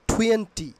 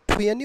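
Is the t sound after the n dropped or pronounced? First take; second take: pronounced; dropped. First: The t after the n is pronounced. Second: The t after the n is dropped. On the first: "or টুয়েন্টি" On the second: "তোমরা টুয়েনি বলে উচ্চারণ করবে, একটি স্মার্টভাবে"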